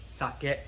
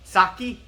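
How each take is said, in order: First: "sake" as even "sah-keh"; Japanese pronunciation. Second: "sake" as loud, high "SAH-kee"; Englishized pronunciation. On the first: Teacher showing the original after the American one, Japanese pronunciation. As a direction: end "sake" on a short "eh". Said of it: "the eh sound at the end". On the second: Teacher showing how Americans say it, Englishized pronunciation. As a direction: punch "sake" and end it in "kee". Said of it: "We Americans have kinda Englishized". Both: Shown as a demonstration.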